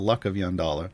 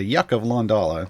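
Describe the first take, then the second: First: The first word starts with L, the name with Y. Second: The first word starts with Y, the name with L. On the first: The speaker calls it right. "and it's the" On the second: The speaker calls it wrong. "what I commonly mispronounce as"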